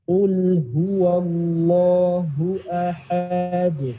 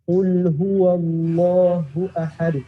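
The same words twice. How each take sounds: First: It is recited very slowly. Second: It is recited at a moderate speed. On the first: "kita harus bisa baca secara pelan-pelan banget" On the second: "baca agak cepetan dikit. Sedang"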